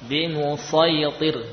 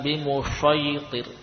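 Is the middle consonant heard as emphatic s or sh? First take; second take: emphatic s; sh. First: The consonant is a thick, emphatic s. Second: The consonant is pronounced like sh. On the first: The speaker calls it right. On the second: The speaker calls it wrong.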